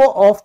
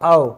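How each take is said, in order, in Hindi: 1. शब्द f की ध्वनि से खत्म होता है। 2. शब्द v की ध्वनि से खत्म होता है। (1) "अगर आप इसको ऑफ कहते हैं तो ये गलत है" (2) "इसकी इंग्लिश होती है ऑव"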